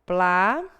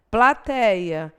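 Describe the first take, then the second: First: Said in the usual way. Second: Plateia said loud and syllable by syllable; careful pronunciation. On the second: Shown as a demonstration. Teacher sounding out Plateia loudly for students. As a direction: spell out Plateia clearly for the class.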